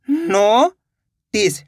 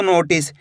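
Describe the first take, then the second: First: "notice" split into a long rising "नो", pause, then "टिस"; syllable by syllable. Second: Said in the usual way. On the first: Shown as a demonstration. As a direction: sound out "नो ... टिस" very slowly. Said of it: "दोनों को मिला देंगे तो notice". ("Notice" को तोड़कर धीरे-धीरे: नो ... टिस) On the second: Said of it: "दोनों को मिला देंगे".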